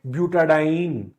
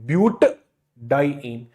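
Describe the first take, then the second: First: It flows smoothly with a vowel linking parts. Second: It stops between but and diene. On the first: The speaker calls it right. "that name becomes continuous" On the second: The speaker calls it wrong. "I have to stop myself in between"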